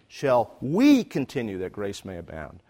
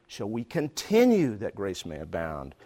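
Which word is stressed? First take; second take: we; continue. First: The stress falls on the word 'we'. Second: The stress falls on the word 'continue'. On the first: It is about us, not somebody else. "This is us, not somebody else" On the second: It asks why the behaviour keeps going on. "why do I keep doing this?"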